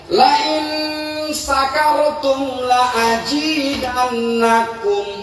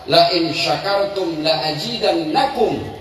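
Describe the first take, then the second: First: The key word begins with a plain 's' sound. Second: The key word begins with an 'sh' sound. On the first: If you are drunk, I will add more. The speaker calls it wrong. "Latah ibu tuh bacanya" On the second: If you are grateful, I will add more. The speaker calls it right. "kalau dia huruf sya, artinya syu, syukur"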